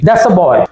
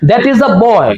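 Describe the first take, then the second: First: 'That is' contracted, with the article said 'uh'. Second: Full 'that is', with the article said 'uh'. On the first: "दैट इज का contraction कर दिया" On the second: "सही pronunciation"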